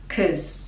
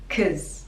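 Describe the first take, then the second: First: The vowel in 'cause is a short schwa. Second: The same.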